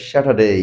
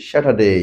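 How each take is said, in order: Both takes have the same delivery.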